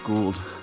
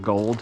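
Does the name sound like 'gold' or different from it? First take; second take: different; gold. First: The name's vowel differs from the word 'gold'. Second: The name sounds just like the word 'gold'. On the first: The speaker calls it right. "Apparently it's pronounced Gould" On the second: The speaker calls it wrong. "not Gold"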